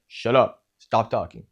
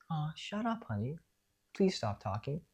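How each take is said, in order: First: Louder, curt and cold; harsh scolding. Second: Much softer, higher, gentle and affectionate; sweet teasing. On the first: Parent shutting a child down with harsh anger. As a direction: snap it at the child. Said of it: "It's more like". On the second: Parent hushing a child softly and fondly. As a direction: say it like a loving joke to a child. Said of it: "so it's not like". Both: Shown as a demonstration.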